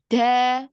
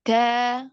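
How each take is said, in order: The two takes are said the same way.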